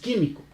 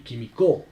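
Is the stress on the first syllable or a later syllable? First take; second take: first; later. First: The stress falls on the first syllable. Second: The stress falls on a later syllable. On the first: The speaker calls it right. "dices químico" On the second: The speaker calls it wrong. "tú no dices químico ni químico"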